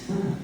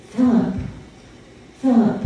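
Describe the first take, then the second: First: The name said much softer, almost breathed; hushed call. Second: Said in the usual way. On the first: Retold or imitated. Priest retelling the voice calling him, hushed. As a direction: drop the name to a hush.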